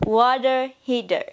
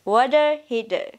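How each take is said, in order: First: It is said in an American English accent. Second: The same.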